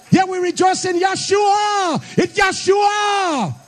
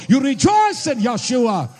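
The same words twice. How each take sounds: First: Rising preacher shout. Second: Said in the usual way. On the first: Acted. Preacher calling the church to rejoice, shouting. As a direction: shout it out high, dragging out Yeshua.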